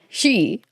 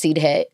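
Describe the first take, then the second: First: It is said like the English word 'she'. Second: It is said like 'seedhe', as spelled. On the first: The speaker calls it right. "It's pronounced she" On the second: The speaker calls it wrong. "It's not pronounced Sidhe"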